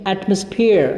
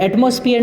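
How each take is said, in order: First: "एटमॉस्फेयर" as AT-muhs-peer; correct pronunciation. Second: "एटमॉस्फेयर" as ayt-MOS-fi-yar; common mispronunciation. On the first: Teacher giving the correction, "एटमॉस्फेयर" as AT-muhs-peer. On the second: Teacher rejecting a reading, "एटमॉस्फेयर" as ayt-mos-fi-yar. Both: Shown as a demonstration. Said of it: "नहीं कहेंगे".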